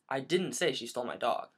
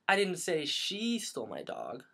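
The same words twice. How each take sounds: First: The stress falls on the word didn't. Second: The stress falls on the word she.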